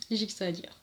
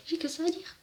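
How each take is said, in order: First: Said in the usual way. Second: Much higher, lilting up at the end; squeaked-up echo of the line; high-pitched repeat. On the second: Real, not acted. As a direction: repeat it in a comically raised pitch. Comic repeat of own line.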